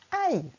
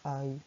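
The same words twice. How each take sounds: First: It is said with a pained, exclamatory tone. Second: It is said flatly, without feeling. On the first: The speaker calls it right. "on essaie de mettre le ton" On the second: The speaker calls it wrong. "quand on se fait mal, on ne dit pas aïe. Non"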